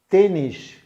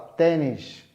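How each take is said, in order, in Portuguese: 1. A primeira vogal é fechada. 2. A primeira vogal é aberta. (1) "no Brasil você fala tênis fechado" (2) "Em Portugal você fala tênis aberto"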